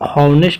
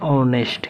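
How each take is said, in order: First: The word begins with an h sound. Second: The word begins directly with a vowel. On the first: The speaker calls it wrong. "इसको हॉनेस्ट नहीं पढ़ेंगे" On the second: The speaker calls it right. "इसको पढ़ते हैं ऑनेस्ट"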